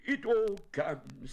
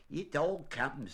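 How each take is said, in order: First: High, loud, slow bear grumble; cross. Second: Higher, slow, firm retort; stern rabbit laying down the law. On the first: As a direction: play a peeved bear, high-pitched. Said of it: "said Winnie the Pooh crossly". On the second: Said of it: "said Rabbit sternly". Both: A narrator's reading.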